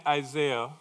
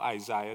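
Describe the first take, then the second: First: Isaiah said "eye-ZAY-uh"; regional pronunciation. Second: Isaiah said "eye-ZYE-uh"; alternative regional pronunciation. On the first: Preacher naming a scripture to the congregation, Isaiah as eye-ZAY-uh. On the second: Preacher offering the congregation another regional form, Isaiah as eye-ZYE-uh. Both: Shown as a demonstration. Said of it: "depending on what part of the world you're from".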